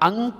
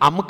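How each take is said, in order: First: The nasal is said as an ng sound. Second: The nasal is said as a plain m sound. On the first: The speaker calls it right. "ಅಂಕ ಆಗುತ್ತೆ" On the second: The speaker calls it wrong. "ಅಮ್ಕ ಆಗೋದಿಲ್ಲ"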